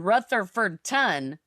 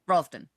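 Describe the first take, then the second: First: Every syllable of the name is said clearly. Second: The syllables of the name are run together. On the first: This is not how locals say it. The speaker calls it wrong. "no one says that" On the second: This is how locals say it. The speaker calls it right. "it's just all run together"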